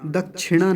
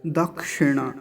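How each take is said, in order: First: दक्षिणा with क्ष turned into chh, dakchhina; wrong chh sound. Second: दक्षिणा with a clean क्ष, kshe sound; correct dakshina. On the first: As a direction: say दक्षिणा wrongly as dak-chhi-na. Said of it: "जब छकार का उच्चारण करते हैं तो वो अशुद्ध होता है". (दक्षिणा में क्ष को छ बोलना) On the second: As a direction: say दक्षिणा with a crisp क्ष, not chh. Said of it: "दक्षिणा नहीं". (दक्षिणा का शुद्ध क्ष उच्चारण) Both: Shown as a demonstration.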